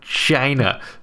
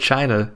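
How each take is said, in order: First: The word is said as a mocking imitation. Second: The word is said in an ordinary way. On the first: "without making it sound like China" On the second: "it's hard to say China"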